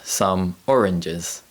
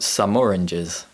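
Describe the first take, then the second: First: The two words are said separately. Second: The two words are joined together.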